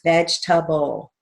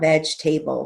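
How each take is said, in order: First: The vowel after 'veg' is short. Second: The vowel after 'veg' is a long A. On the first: The speaker calls it right. "It's vegetable, short A" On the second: The speaker calls it wrong. "not veg table, long A"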